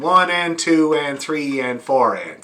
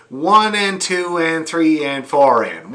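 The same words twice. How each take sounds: First: Said in the usual way. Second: "One and two and three and four and" counted slowly and evenly; slow counting demo. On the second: Shown as a demonstration. Fiddle teacher demonstrating the count, slow and even. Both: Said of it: "it's like this".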